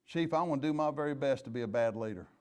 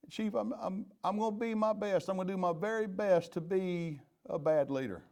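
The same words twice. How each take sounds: First: Said in the usual way. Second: A higher, keen quote of a new supervisor, lightly voiced; eager new supervisor. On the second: Chief mimics an officer thanking him for promotion, lightly higher and eager.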